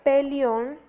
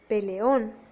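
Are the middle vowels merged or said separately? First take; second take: merged; separate. First: The two middle vowels merge into one syllable. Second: The two middle vowels are in separate syllables. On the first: The speaker calls it wrong. "se pasa de un hiato a un diptongo" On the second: The speaker calls it right. "se debería decir peleón"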